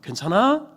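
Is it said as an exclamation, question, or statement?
question. It rises at the end like a question.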